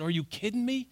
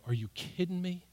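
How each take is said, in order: First: A touch of incredulous surprise; a hint of exasperated reader; mild disbelief. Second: Quiet, serious parental disbelief; lightly voiced stern parent; serious parent rebuke. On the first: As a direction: react to the passage with quiet disbelief. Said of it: "I said". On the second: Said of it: "they knew ... that I was serious".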